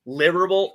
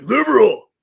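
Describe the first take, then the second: First: Said in the usual way. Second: Loud, higher-pitched mock bellow; exaggerated cry of the name; put-on announcing voice. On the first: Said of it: "I feel like when I say it". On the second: Shown as a demonstration. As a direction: belt out the name in a silly put-on voice. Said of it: "I gotta say it in that voice".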